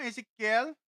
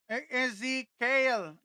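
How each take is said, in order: First: Ezekiel? asked with a rising tune, read off the screen; trying out the name Ezekiel as a question. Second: Ezekiel said very slowly, syllable by syllable, falling at the end; careful slow name. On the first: (binabasa ang Ezekiel nang patanong) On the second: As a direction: sound out Ezekiel carefully to get it right. (dahan-dahang binibigkas ang Ezekiel) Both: Shown as a demonstration.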